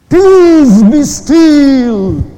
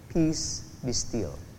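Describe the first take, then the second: First: It is said forcefully and dramatically. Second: It is said calmly, without force.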